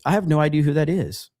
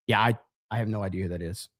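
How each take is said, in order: First: Said in the usual way. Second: Low, quick, softer throwaway mutter; muttered aside. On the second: Real, not acted. Streamer muttering to himself after reading a chat message. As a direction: mumble it under your breath, half to yourself.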